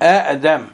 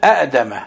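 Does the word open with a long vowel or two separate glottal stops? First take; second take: two stops; two stops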